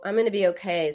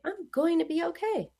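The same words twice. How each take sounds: First: The tone is flat and somewhat negative. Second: The tone is warm and hopeful. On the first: The speaker doubts things will improve. The speaker calls it wrong. "sort of neutral to negative" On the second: The speaker believes things will improve. The speaker calls it right. "That is hopeful"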